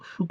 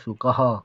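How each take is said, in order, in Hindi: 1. शब्द का अंत 'h' ध्वनि के बिना होता है। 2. शब्द का अंत 'h' ध्वनि के साथ होता है। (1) "शुक न कहे" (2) "हम क्या बोलते हैं"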